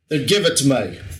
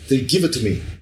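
First: It is said in a Cockney British accent. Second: It is said in a Spanish accent. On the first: "Like a Cockney con? No, that's too far" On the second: "I shouldn't be saying this in, like, Spanish accent"

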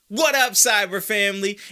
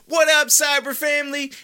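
First: It is said with calmer, lower energy. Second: It is said with very high, excited energy.

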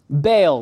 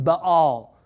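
First: The name is said with English pronunciation. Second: The name is said with Hebrew pronunciation. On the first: "we're just not going to pronounce anything with Hebrew pronunciation" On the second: "that's exactly how you're supposed to pronounce this name in Hebrew"

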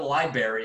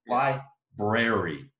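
First: It ends like berry, with no r after b. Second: The r after the b is clearly pronounced. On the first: The speaker calls it wrong. "It's not a berry. It's not a fucking berry" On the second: The speaker calls it right. "It's library"

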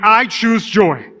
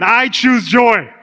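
First: It is said plainly, without much conviction. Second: It is said with strong, believing conviction.

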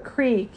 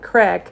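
First: The vowel is long, like 'creek'. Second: The vowel is short, like 'crick'. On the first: "you've got a creek" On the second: "or as my grandmother would call, a crick"

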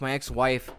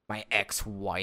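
First: It is said in a plain, neutral tone. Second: It is said in a bitter, venomous tone.

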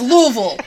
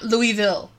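First: The name is pronounced the local Kentucky way. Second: The name is pronounced the French way. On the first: The speaker calls it right. "It's Louisville" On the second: The speaker calls it wrong. "We are not French. It is not Louisville"

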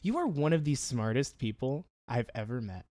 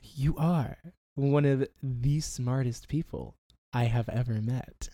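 First: It is said at a normal pace. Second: It is said slowly and deliberately.

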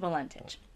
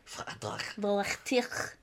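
First: The name is said with an English accent. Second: The name is said with a French accent. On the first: "So I'm just going with Valentich" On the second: "it could be a French name, and that they would say it like"

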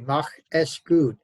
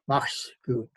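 First: The word 'es' is said as a separate syllable. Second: The word 'es' is reduced to an attached s. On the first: The speaker calls it wrong. "Literally, it would be Mach es gut. But people don't say mach es gut" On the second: The speaker calls it right. "They use the contracted form mach's gut"

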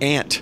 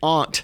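First: The vowel matches the insect word 'ant'. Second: The vowel differs from the insect word 'ant'. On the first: This is how the speaker says it. "I say aunt. ... I know an aunt is really a little creature" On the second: This is how the other person says it. "you always say aunt"

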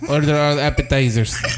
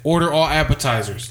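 First: It is said in an imitated Spanish accent. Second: It is said in the speaker's plain accent. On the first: The speaker calls it right. "He was Spanish" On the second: The speaker calls it wrong. "He didn't say it like that"

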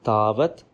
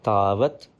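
Both takes have the same delivery.

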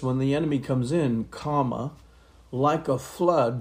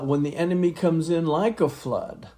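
First: There is a marked pause after "comes in". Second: It runs on with no pause after "in".

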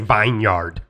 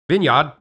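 First: It is said with a German-sounding accent. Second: It is said with a British accent.

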